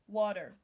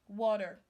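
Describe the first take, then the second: First: The T is pronounced like a D. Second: The T is pronounced like a D.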